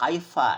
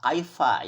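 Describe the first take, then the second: First: The consonant is an f sound. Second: The consonant is an f sound.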